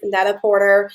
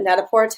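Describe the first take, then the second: First: The name is pronounced the English way. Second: The name is pronounced the French way.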